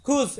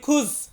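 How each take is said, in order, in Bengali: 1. শব্দটি 'z' ধ্বনি দিয়ে শেষ হয়। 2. শব্দটি 'z' ধ্বনি দিয়ে শেষ হয়।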